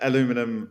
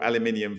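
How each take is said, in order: First: It is said with the American pronunciation. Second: It is said with the British pronunciation. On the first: This is how the other side of the pond says it. "When you say uh, aluminum" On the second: This is how the speaker's own side says it. "aluminium for us on this side of the pond"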